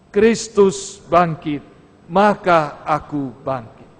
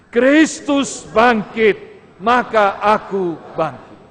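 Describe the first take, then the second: First: It is said at normal loudness. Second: It is said louder and more firmly.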